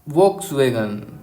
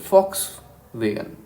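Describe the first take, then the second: First: The word begins with a V sound. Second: The word begins with an F sound. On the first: The speaker calls it wrong. "उसको हम बोलते हैं वोक्सवैगन" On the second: The speaker calls it right. "But इसका नाम सही है फॉक्स वैगन"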